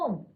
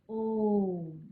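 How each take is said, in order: First: The vowel is said short and quick. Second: The vowel is drawn out to triple length. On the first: The speaker calls it wrong. "ओम ऐसे नहीं बोलते हम" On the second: The speaker calls it right. "इसके उच्चारण में हमें तिगुना समय लगता है"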